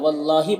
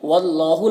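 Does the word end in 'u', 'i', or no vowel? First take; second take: i; u. First: The word ends with an 'i' vowel. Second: The word ends with a 'u' vowel. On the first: The speaker calls it right. "या वल्लाही पढ़िए" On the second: The speaker calls it wrong. "वल्लाहु नहीं पढ़ना है"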